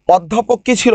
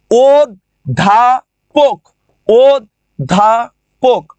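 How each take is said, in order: First: Said in the usual way. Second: অধ্যাপক said slowly as ওদ্দাপক; slow syllable-by-syllable অধ্যাপক with doubled দ; doubled d demo. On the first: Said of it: "যেমন অধ্যাপক". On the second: Shown as a demonstration. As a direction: drag out অধ্যাপক with a held double দ. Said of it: "দয় ধ হয়ে যায়".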